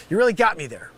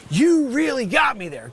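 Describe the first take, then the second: First: Said in the usual way. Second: Same line pushed up and shouted; louder exasperated repeat. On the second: Acted. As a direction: yell it the second time.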